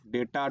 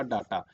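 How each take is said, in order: First: डेटा opening like "day"; "ay" vowel first in डेटा; English pronunciation. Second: डाटा opening with long "daa"; "aa" vowel first in डाटा; Hindi-spelling pronunciation. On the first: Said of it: "English में हम लोग डेटा". (डेटा को "डे" से शुरू करें) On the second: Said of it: "Hindi में लिखते हैं डाटा". (डाटा को "डा" से शुरू करें) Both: Shown as a demonstration.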